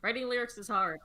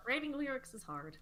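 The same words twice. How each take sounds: First: Said in the usual way. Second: Higher, put-on whine about lyrics; mock whiny voice. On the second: Shown as a demonstration. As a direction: whine it like a sulky kid.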